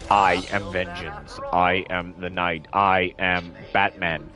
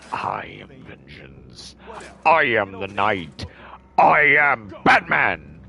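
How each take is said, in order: First: The lines are delivered flatly with little emotion. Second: The lines are delivered with strong emphasis and emotion. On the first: It sounds like a machine-generated voice. The speaker calls it wrong. "that's all it sounds like" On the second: It sounds like a real performer voicing it. The speaker calls it right. "someone else who can actually put emphasis on it"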